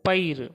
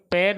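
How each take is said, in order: First: पैर with ऐ as a gliding 'a-i', like 'pa-ir'; ऐ का उच्चारण. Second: पैर with ऐ flattened into a simple vowel, the form to avoid; गलत उच्चारण. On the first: (पैर को 'पइर' जैसा बोलें) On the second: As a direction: say पैर with one plain 'e'-like vowel, no glide. (पैर को बिना 'अइ' के, सपाट स्वर में बोलें) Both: Shown as a demonstration. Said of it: "ऐ को ऐ बोलेंगे".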